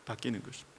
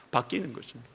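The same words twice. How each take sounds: First: Much softer, lower repeat; hushed 바뀌는 것입니다; near-whispered echo. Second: Said in the usual way. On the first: Shown as a demonstration. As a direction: let it fall to almost nothing.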